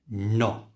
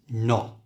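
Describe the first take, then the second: First: The final t sound is dropped. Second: The final t sound is dropped.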